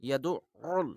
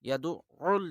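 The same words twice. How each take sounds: First: The 'ain' consonant is doubled and forceful. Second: The 'ain' consonant is doubled and forceful.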